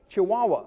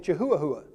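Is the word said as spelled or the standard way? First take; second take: standard; as spelled. First: It is said the usual, standard way. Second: It is said sounding out its spelling.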